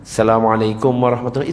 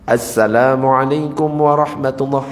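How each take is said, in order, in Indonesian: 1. Bunyi 'as' di awal dihilangkan. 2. Bunyi 'as' di awal diucapkan dengan jelas. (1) "jangan Assalamualaikum warahmatullahi. Itu tidak sah" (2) "harus ada alif lamnya di depan"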